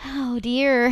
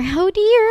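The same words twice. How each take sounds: First: Said in the usual way. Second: Higher, louder mock dismay; mock alarm. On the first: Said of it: "repeated reaction". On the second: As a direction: squeal it in fake shock. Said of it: "repeated, high mock alarm".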